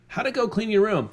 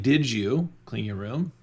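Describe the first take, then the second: First: Much higher, friendly and upbeat; a cheerful dad checking on the room; encouraging question. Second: Slow, pointed check-up question; a parent quizzing a kid; accusing question. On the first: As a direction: sound like you believe in them. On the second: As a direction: ask it like you already know the answer. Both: Shown as a demonstration. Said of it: "You hear the difference?".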